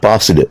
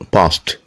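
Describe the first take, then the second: First: The ending is not a t sound. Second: The ending is a t sound. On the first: The speaker calls it wrong. "Not passed" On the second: The speaker calls it right. "P A S T sound"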